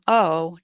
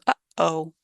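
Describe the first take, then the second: First: The vowels run together with no break between. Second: The airflow stops sharply in the throat mid-word. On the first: "goes from oh" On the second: "With that glottal stop"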